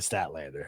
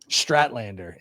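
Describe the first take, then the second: First: The name begins with an 'st' sound. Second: The name begins with an 'str' sound. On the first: The speaker calls it right. "instead of Statlander" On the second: The speaker calls it wrong. "I did it once by accident and then did it on purpose"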